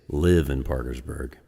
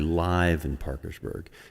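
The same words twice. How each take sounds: First: Live rhymes with give, like the verb. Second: Live rhymes with five, like the adjective. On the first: Someone resides in the town. The speaker calls it wrong. "Some people mispronounce it and they say live in Parkersburg because they get confused because I live in Parkersburg" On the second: It was recorded at a concert in the town. The speaker calls it right. "But it's actually Live in Parkersburg. It's a live album"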